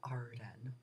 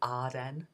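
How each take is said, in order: First: The name is said with an R sound. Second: The name is said with no R sound. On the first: The speaker calls it wrong. "It's not Arden" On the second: The speaker calls it right. "the name doesn't have an R in it"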